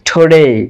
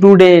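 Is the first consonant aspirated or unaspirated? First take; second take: aspirated; unaspirated. First: The first t has a strong puff of air. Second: The first t has no puff of air. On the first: The speaker calls it right. "এটা হচ্ছে টুডে" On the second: The speaker calls it wrong. "এটা কিন্তু টুডে নয়"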